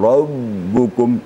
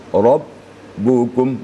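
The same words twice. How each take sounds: First: The b sound keeps flowing without stopping. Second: The b sound is held and stops abruptly. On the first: The speaker calls it wrong. "itu namanya rakhawa" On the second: The speaker calls it right. "suara terputus bunyinya, tidak mengalir"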